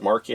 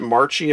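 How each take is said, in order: First: The middle consonant is a hard K sound. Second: The middle consonant is a soft sound. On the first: The speaker calls it right. "pronounced with a K, so it's got more of a hard edge sound" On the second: The speaker calls it wrong. "Some people pronounce it"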